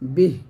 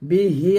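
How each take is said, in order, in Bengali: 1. শব্দটি ব্যঞ্জনধ্বনিতে শেষ হয়েছে, শেষের স্বরটি বাদ পড়েছে। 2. শব্দটি একটি স্বরধ্বনি দিয়ে শেষ হয়েছে।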